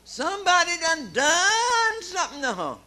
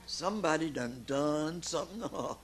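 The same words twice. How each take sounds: First: Put-on high, loud drunken yell; drunk shout. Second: Said in the usual way. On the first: Drunk woman waking in bed, yelling at her mom.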